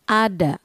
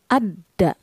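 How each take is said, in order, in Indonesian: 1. Konsonannya pendek dan tunggal. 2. Konsonannya ditahan lama dan dirangkap. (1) "Jika tidak ada tasydid, dibaca" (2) "Jika diberi tasydid, dibaca"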